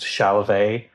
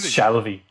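First: The name is said in a fancier way. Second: The name is said in a plain way. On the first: The speaker calls it wrong. "which is a much fancier way to pronounce it" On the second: The speaker calls it right. "That's just Shalvey, like in the bog"

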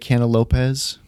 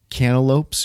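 First: The word ends with an extra ez syllable. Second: The word ends in a single lopes syllable. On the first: The speaker calls it wrong. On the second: The speaker calls it right.

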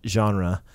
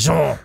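First: The word has an ordinary English pronunciation. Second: The word has a French-style pronunciation.

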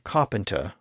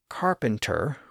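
First: The R sounds after vowels are left out. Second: The R sounds after vowels are clearly pronounced. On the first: "like modern received pronunciation" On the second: "with distinct R sounds, like American or Irish English"

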